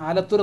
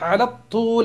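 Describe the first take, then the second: First: The word ends with an R sound. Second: The word ends with an L sound. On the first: It sounds like the name of a town. The speaker calls it wrong. "ആരും തന്നെ ആലത്തൂർ എന്ന് പറയുന്നത് കേട്ടോ" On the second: It means straight ahead along the length. The speaker calls it right. "തൂൽ എന്ന് പറഞ്ഞാൽ നീളം"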